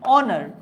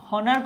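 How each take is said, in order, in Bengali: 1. শব্দটি স্বরধ্বনি দিয়ে শুরু হয়। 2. শব্দটি h ধ্বনি দিয়ে শুরু হয়। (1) "আমরা উচ্চারণ করছি কি অনার" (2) "উচ্চারণ কি হনার করছো? নিশ্চয় না"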